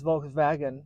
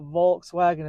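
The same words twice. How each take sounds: First: The 'wagen' part begins with a V sound. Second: The 'wagen' part begins with a W sound. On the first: The speaker calls it right. "Germans do not say W's, they put V's where W's are" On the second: The speaker calls it wrong. "it's not Volkswagen"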